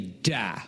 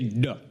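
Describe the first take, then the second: First: The word ends on a full open vowel. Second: The word ends on a short reduced vowel. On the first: "we just say da, which is short" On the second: "They don't even say the vowel"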